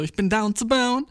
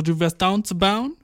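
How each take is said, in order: First: Slow, high-pitched imitation of a date; imitated eager confirmation. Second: Slow, higher echoing question; delighted disbelief. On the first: Date repeating his slang back to him, eager. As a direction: lift it high and stretch it out. Her tentative answer in borrowed slang. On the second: Retold or imitated. Guy checking his date's borrowed slang, mock amazed. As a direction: draw it out, rising on "bauen".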